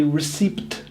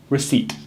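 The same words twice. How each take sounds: First: "receipt" as ri-SEEPT, P sounded; mispronounced receipt. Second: "receipt" as ri-SEET; silent P. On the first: Teacher imitating people's mistake, P sounded. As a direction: say "receipt" wrongly with an audible P. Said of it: "so many people try and say". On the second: Teacher presenting the tenth word, silent P. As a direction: say "receipt" with no P sound. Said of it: "it's a silent P". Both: Shown as a demonstration.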